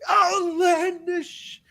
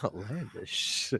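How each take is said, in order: First: The word is said wildly and loudly. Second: The word is said calmly and quietly.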